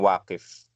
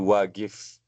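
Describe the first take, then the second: First: The middle consonant is a deep q sound. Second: The middle consonant is a hard g sound. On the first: This is the standard form of the word. "maksudnya wakif ya" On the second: This is how some Egyptian and Saudi speakers say it. "huruf Qaf ya, biasanya dibacanya ga ya"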